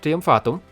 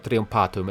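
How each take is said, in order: First: It uses a later Latin pronunciation. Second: It uses a classical Latin pronunciation. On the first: "I'm going with a more later pronunciation" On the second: "if you want to go with a more classical pronunciation"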